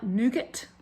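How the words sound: Nougat is said in a North American way. "I think North Americans say it"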